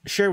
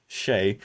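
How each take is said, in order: First: Said in the usual way. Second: Shay said as one blended word of share and say; mock-repeat the garbled Shay; blended slip word. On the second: Shown as a demonstration. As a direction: replay the slip Shay, lower and falling. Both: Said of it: "combined share and say".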